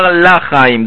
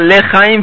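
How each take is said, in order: First: The first vowel is a full 'a' sound. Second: The first vowel is a short reduced schwa. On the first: The speaker calls it wrong. "ולא יאמר בפתח" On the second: The speaker calls it right. "יאמר בשבות תחת הלמד"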